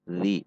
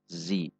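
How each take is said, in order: First: The tongue sits between the teeth, a soft 'th'. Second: The tongue stays behind the teeth, a 'z'. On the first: The speaker calls it right. "di bawah gigi seri atas sedikit keluar" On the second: The speaker calls it wrong. "bukan di dalam"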